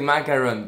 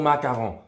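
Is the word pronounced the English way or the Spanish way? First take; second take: English; Spanish. First: The word is pronounced with English-style sounds. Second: The word is pronounced with Spanish-style sounds. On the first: The speaker calls it wrong. "mucha gente llega y dice macaron, pero no es macaron" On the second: The speaker calls it right. "es macarrón o macarón, pero no es inglés"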